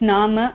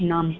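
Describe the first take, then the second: First: The word ends with a short final vowel. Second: The word ends on the m sound. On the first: The speaker calls it right. "It's नाम" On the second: The speaker calls it wrong. "Not नाम"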